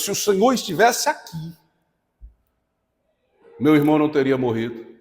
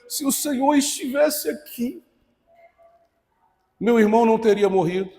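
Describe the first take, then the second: First: It sounds demanding and reproachful. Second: It sounds mournful and tearful.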